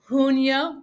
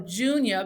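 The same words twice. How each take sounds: First: It begins with an H-like sound. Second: It begins with an English J sound. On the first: The speaker calls it right. "the J in Spanish is like an H" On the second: The speaker calls it wrong. "It's not going to be junio"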